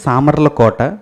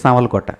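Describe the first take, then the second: First: Every syllable of the name is clearly pronounced. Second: The name is run together with sounds reduced. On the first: "జాగ్రత్తగా మనం మాట్లాడితే" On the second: "మనం ఫ్లోలో మాట్లాడితే"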